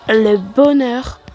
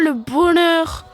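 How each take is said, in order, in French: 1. C'est dit avec son accent habituel. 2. C'est dit avec un accent bizarre, forcé.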